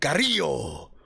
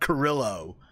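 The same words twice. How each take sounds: First: The name is said with a Spanish pronunciation. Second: The name is said with an American pronunciation. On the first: The speaker calls it right. "You're saying it wrong, man. It's Carrillo" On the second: The speaker calls it wrong. "I'm saying American sounding"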